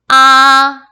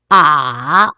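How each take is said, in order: First: The pitch stays high and level. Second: The pitch dips low, then rises. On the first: "일성은 솔의 기준으로 평평하고 높게" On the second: "레에서 도로 올라가 올라"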